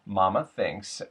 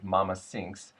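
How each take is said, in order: First: 'Thinks' starts with a TH sound. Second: 'Thinks' starts with an S sound.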